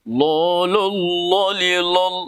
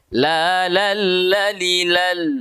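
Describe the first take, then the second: First: The L is pronounced thick with rounded vowels. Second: The L is pronounced thin with open vowels. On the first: The speaker calls it wrong. "tidak boleh kita tebalkan" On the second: The speaker calls it right. "Jadi tipis"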